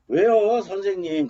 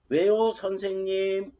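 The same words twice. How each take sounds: First: The tone sounds annoyed and complaining. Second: The tone sounds curious and inquiring. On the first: The speaker resents being bothered. "불만이 있어가지고 아 왜 도대체 나 귀찮게 부르는" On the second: The speaker wonders why they were called. "왜 내가 나를 부르는지 궁금해서 했단 말이야"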